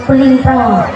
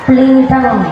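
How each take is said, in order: No difference in how they are said.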